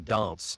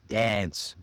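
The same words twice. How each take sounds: First: The vowel is a long, open AH sound. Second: The vowel is a short A sound. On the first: "a British person would would say" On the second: "Americans, it's that ah, that short a"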